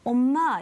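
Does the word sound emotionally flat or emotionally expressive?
flat. It is said flatly, with little emotion. The speaker calls it wrong. "네가 만약에 엄마 이렇게 얘기하니"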